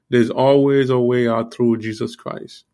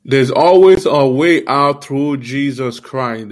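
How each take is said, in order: First: Said in the usual way. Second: There's always a way out through Jesus Christ, slow and louder with ALWAYS stressed; emphatic preaching. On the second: Acted. Repeated key message, preached slowly.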